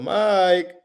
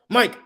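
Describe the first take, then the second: First: The name is called in a friendly, playful tone. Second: The name is called in an alarming, serious tone. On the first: It is a casual, friendly greeting. ""Hey, yo, that's us." ... You'll be more playful" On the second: Something is wrong. "you're gonna be like, "Whoa, what's going on?""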